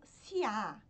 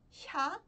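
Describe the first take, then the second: First: An extra i sound splits it into two syllables. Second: It is said as one syllable, close to sha. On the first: The speaker calls it wrong. "muitas pessoas pronunciam como Sia ... mas isso tá errado" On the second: The speaker calls it right. "Lembra bastante o X, mas não é o X"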